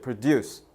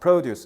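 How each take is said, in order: First: The stress is on the second syllable. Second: The stress is on the first syllable. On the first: It is a verb meaning to make something. "강세를 뒤에다 줬지. produce 이러면 생산하다" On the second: It is a noun meaning farm products. "강세를 앞에다 뒀잖아. produce 이런 명사야"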